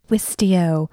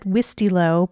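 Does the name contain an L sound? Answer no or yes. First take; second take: no; yes. First: The name is said without an L sound. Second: The name is said with an L sound. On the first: The speaker calls it right. "I was wrong" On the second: The speaker calls it wrong. "There's no L in there"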